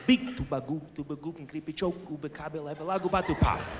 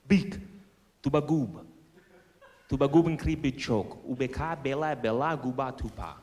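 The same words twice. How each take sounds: First: It is said very fast. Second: It is said at normal speed.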